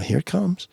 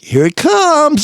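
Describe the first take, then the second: First: It is said quietly and subtly, without smugness. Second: It is said with a smug, grinning tone. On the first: The surprise stays hidden. The speaker calls it right. "it had to be very subtle" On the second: It gives away that a trap is coming. The speaker calls it wrong. "if you say it with like a shitty grin"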